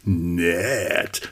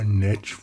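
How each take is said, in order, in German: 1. Es klingt bewundernd, lebhaft und anzüglich. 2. Es klingt lahm, flach und abweisend. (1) "man kann nett auch ganz anders betonen, so nice" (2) "hat ja so einen piefigen, schlechten, langweiligen Klang bekommen"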